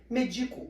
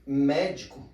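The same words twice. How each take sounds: First: MEDICO with the middle DI stressed; stress on the middle syllable. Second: MÉDICO punched on MÉ; stress on the first syllable. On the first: Teacher showing how accents change words, Medico stressed on DI. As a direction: lean on DI in Medico. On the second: Teacher showing how accents change words, Médico stressed on MÉ. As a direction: say Médico with a strong opening MÉ. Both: Shown as a demonstration. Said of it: "percebem a diferença de um acento".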